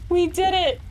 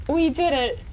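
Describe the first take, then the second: No difference in how they are said.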